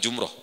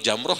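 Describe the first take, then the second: First: The first vowel is a rounded 'u'. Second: The first vowel is an open 'a'. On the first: The speaker calls it wrong. "bukan Jumroh" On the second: The speaker calls it right. "Yang betul Jamroh ya"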